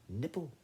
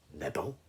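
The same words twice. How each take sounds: First: Confirming mouse. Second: NIBBLE as a low rising question; puzzled lion. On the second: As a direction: query "Nibble" in a lower lion voice. Lion queries the mouse's word. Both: Acted.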